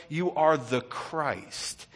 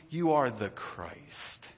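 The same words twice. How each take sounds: First: Drawn out, every word weighed; slow proclamation. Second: Each word slowly, hushed; slow confession. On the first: Preacher voicing Peter's confession, slowly. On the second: Preacher voicing Peter, slow and soft. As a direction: draw out Peter's answer. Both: Acted.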